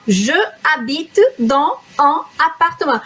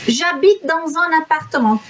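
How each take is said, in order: First: Each word is said separately with breaks. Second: The words flow together without breaks.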